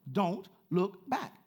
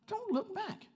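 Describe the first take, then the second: First: Slow and firm, rising on back; slow emphatic repeat. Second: Much higher, falling command; high urgent repeat. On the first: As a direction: lean hard on back, stretched out. Third repeat of the command. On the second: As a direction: leap up and drop it like an alarm. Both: Acted.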